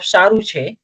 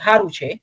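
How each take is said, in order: First: The first word begins with an s sound. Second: The first word begins with an h sound. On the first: "इंस्टेड ऑफ" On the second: "आई से"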